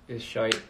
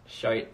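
First: "shite" in a light mock Irish accent; a quick, hammed-up Irish "is shite". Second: "Shite" said alone in a light mock Irish accent. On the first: Vlogger showing fans an Irish accent, light mock Irish. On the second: Vlogger repeating the Irish word, mild mock Irish. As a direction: toss off "Shite" like a half-hearted Irish imitation. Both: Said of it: "The Irish accent is".

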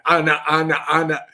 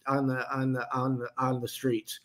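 First: Said in the usual way. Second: Flat robotic monotone, stuck repeating. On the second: Real, not acted. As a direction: sound like a stalled robot. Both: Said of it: "God, I sound like a robot there".

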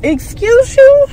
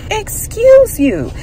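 First: High, slow, loud rising question; drawn-out, sassy comeback with the question rising; sassy excuse you. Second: High, slow excuse you, falling shut like a verdict; slow, high, and settled; final excuse you. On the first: Snapping back at the salon owner, slow, high and sassy. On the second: Repeating it to the salon owner as a closing put-down, high and slow. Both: Retold or imitated.

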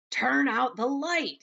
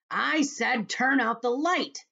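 First: Louder, higher and slow call; raised voice. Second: Loud, high, slow furious shout; angry shout. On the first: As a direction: raise the voice to be heard across the room. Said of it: "raising his voice". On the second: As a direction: yell it in angry frustration. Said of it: "shouted the centipede angrily". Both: Acted.

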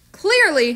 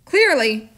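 First: Clearly said higher and louder, falling; emphatic Clearly. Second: Said in the usual way. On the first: Shown as a demonstration. Reader restating Clearly with higher, louder emphasis. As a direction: punch the word Clearly.

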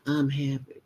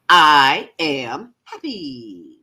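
First: Said in the usual way. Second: Slow, drawn-out, louder declaration; joyful big affirmation; like you won the lottery. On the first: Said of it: "You can't say". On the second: Shown as a demonstration. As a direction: proclaim it with total conviction. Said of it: "say it like you mean it, like you just won the lottery".

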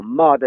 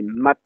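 First: "mad" with a long, held A. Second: "mat" with a short, quick A. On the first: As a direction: stretch the A in "mad". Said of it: "logique avec le A long". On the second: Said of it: "le A est bref". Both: Shown as a demonstration.

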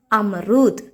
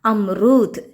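Both takes have the same delivery.

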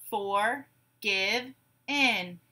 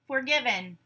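First: "Forgive in" as three slow, separate beats; syllable by syllable. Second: Said in the usual way. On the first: Shown as a demonstration. Teacher gives syllables to blend, "Forgive in" broken apart. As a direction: say "Forgive in" as for, give, in, pausing between. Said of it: "I will say syllables in a word". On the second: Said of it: "You say the whole word".

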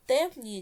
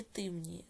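First: First "темніє" with a clear open E; pronounced with E. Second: "темніє" with И replacing the E; pronounced with И. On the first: Teacher offering pupils a spelling choice, "темніє" with E. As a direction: say "темніє" as tem-NI-ye. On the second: Teacher offering pupils a spelling choice, "темніє" with И. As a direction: say "темніє" as tym-NI-ye. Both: Shown as a demonstration. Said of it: "яку букву Е чи И".

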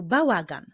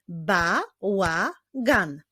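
First: Said in the usual way. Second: "Bałagan" very slowly as Ba, ła, gan; three separate beats on "Bałagan"; syllable by syllable. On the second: Shown as a demonstration. Teacher clapping a longer word, "Bałagan" slowly split into syllables. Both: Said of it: "Wyklaszczmy sylaby w tych wyrazach".

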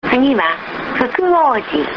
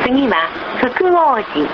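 No difference in how they are said.

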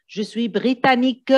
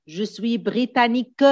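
The two takes are said the same way.

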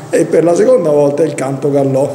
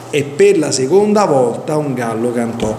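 First: "canto gallò", the two words' endings swapped; retold slip of the tongue. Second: Said in the usual way. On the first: Preacher quoting someone's liturgy blunder, "canto gallò" with swapped endings. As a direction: read "canto gallò" as a botched "gallo cantò". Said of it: "qualcuno si sbagliò durante la liturgia". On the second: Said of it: "non un canto gallò".

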